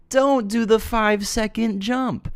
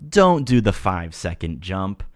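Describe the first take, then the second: First: Slow, much higher, drawn-out "Don't"; emphatic repeat. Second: Said in the usual way. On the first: Shown as a demonstration. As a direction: say it again slowly, sky-high for emphasis.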